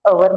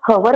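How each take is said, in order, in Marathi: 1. हा शब्द थेट स्वराच्या आवाजाने सुरू होतो. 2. हा शब्द ऐकू येणाऱ्या 'h' आवाजाने सुरू होतो. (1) "आपण अवर म्हणत आहोत" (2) "आपण हवर म्हणत नाहीये"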